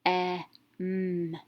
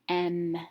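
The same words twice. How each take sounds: First: "E, m" as short e, then a held m; sounded out. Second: "em" joined into one syllable with short e; blended short vowel. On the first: Teacher showing a short vowel sound, sounded out. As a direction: sound out "E, m" separately, short e first. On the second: Teacher reading the closed syllable, blended with short vowel. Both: Shown as a demonstration. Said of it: "short vowel sound".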